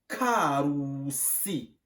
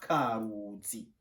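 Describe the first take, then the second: First: The consonant before the final vowel is a voiceless s. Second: The consonant before the final vowel is a voiced z. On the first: The speaker calls it right. "on dit Karusi" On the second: The speaker calls it wrong. "pas Karuzi"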